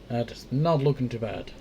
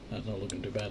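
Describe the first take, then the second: First: It is said with more vocal energy. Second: It is said with plain, low energy.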